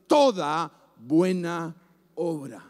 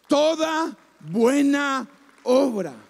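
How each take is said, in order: First: "toda buena obra" bajando de tono palabra por palabra; solemne y descendente. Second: "Toda buena obra" lento, cada palabra recalcada por separado; repetición enfática. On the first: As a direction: deja caer "obra", grave y suave, tras una pausa. Primera vez, baja al final. ("toda buena obra" solemne, cada vez más grave) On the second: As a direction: proclama despacio "Toda", "buena", "obra", con golpe en cada una. Repite palabra por palabra, con fuerza. ("Toda buena obra" enfático, palabra por palabra) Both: Real, not acted.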